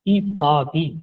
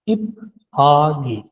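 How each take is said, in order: First: The p and h merge into aspirated ph: i-phagi. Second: The p and h stay separate: ip-hagi. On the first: The speaker calls it right. "ई भागी दुरुस्त साउंड है" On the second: The speaker calls it wrong. "ये साउंड गलत है"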